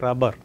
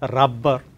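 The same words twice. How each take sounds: First: The b sound is short, single. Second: The b sound is held long, doubled. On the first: The speaker calls it right. "It's only rubber" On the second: The speaker calls it wrong. "There is no question of rubber"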